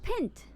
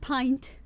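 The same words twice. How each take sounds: First: The vowel is a short i sound. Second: The vowel is a long i sound. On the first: The speaker calls it wrong. "I'm still pronouncing it wrong" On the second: The speaker calls it right. "Long I sound"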